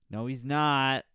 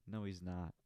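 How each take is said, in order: First: Much louder, higher contradiction; emphatic loud denial. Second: Said in the usual way. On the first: Acted. Podcaster taking back his own joke about the comic, emphatic shout. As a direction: belt out the denial, leaning on "not".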